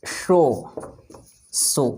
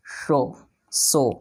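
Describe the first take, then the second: First: शो with sh, then सो with plain s; शो hushed sh, सो hissed s; sh versus s. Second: शो with sh, सो with s; शो sh sound, सो s sound; sh versus s. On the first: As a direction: contrast शो sh and सो s. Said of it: "दोनों में आप अंतर देखे होंगे". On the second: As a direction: contrast शो and सो clearly. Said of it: "मैंने बोला शो". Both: Shown as a demonstration.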